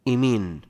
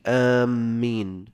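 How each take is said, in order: First: The first vowel leans toward an e sound. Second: The first vowel is long and the m doubled. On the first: "بالإمالة" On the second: "بالمد والتشديد"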